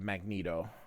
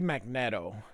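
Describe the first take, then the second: First: The E is said with another vowel sound. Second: The E is said with an eh sound.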